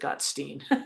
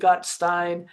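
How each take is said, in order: First: The name is said with a non-German pronunciation. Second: The name is said with German pronunciation. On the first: This is how the man himself says his name. "I think he pronounces it Gottstein" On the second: This is how the name would be read in German. "In German, I would pronounce it Gottstein"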